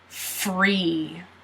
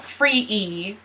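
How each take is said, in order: First: The vowel is said as one single sound. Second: The vowel is split into two separate sounds. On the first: The speaker calls it right. "it's free" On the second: The speaker calls it wrong. "So it's not free E"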